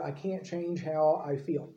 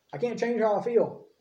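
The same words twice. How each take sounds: First: Slow, softer, resigned mock excuse; mock helplessness, slow and subdued. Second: Higher-pitched mock excuse; the excuse parroted in a raised pitch; mock complaint. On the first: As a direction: drag it out quietly, like a helpless excuse. Voicing a resigned common excuse. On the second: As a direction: lift the voice into a higher, put-on complaint.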